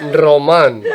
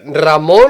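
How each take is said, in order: First: "Roman" as roh-MAHN, drawn out; Spanish-style pronunciation. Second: "Ramon" as rah-MOHN, drawn out; Spanish pronunciation. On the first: Co-host offering name options, "Roman" as roh-MAHN. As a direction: say "Roman" slowly with a long AH at the end. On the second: Co-host offering name options, "Ramon" as rah-MOHN. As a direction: say "Ramon" slowly with a long OH at the end. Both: Shown as a demonstration. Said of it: "was better, Ramon or Roman".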